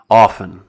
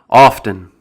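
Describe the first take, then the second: First: The T sound is left silent. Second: The T sound is clearly pronounced. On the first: The more common way of saying the word. "It's more commonly pronounced with the silent T" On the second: An older, less common way of saying the word. "which can be pronounced with the T"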